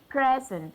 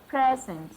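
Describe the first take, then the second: First: The stress is on the first syllable. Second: The same.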